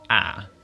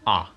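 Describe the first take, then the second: First: The vowel is said long. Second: The vowel is said short. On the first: "The long pronunciation of the letter A is" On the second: "That is the short pronunciation of the letter A"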